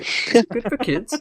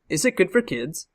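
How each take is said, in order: First: It is said in a put-on Canadian accent. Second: It is said in the speaker's ordinary accent.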